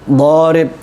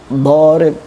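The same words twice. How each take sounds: The two takes are said the same way.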